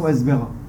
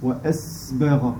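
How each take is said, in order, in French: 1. Le son s est coupé court sans souffle. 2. Le son s est tenu avec un souffle audible. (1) "On ne dit pas" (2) "quand il y a le sukun, on le prolonge un peu"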